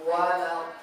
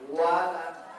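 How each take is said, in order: Both takes have the same delivery.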